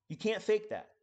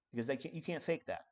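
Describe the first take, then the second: First: Higher and louder repeat; emphatic. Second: Said in the usual way. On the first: Real, not acted. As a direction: punch it harder.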